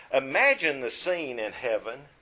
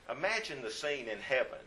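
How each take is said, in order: First: Imagine lifted and held, rising; stressed imagine. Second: Imagine said again, much softer; softer repeat. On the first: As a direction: invite them in on Imagine. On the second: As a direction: draw them in quietly the second time. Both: Shown as a demonstration.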